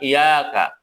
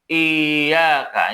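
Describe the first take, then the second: First: The y sound is short and single. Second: The y sound is doubled and pressed. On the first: The speaker calls it wrong. "Bukan iyyaka" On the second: The speaker calls it right. "Tapi dibaca iyyaka"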